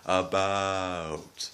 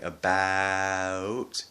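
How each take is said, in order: First: "about" slowed, raised Canadian ou. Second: "about" drawn out with a rising tune; slow "about" the way not to say it; wrong about. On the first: Vlogger slowing it down for learners, right way. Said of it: "you say". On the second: Vlogger slowing it down for learners, wrong way. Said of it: "Instead of saying". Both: Shown as a demonstration.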